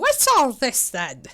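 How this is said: It is said in a put-on old-lady voice.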